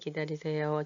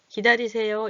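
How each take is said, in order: First: It is said in a soft, gentle tone. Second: It is said in a curt, commanding tone. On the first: It sounds like a polite request. The speaker calls it right. "좀 약간 부드럽게 말하는 거라 그랬죠?" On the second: It sounds like an order to the customer. The speaker calls it wrong. "이렇게 명령하지 않아요"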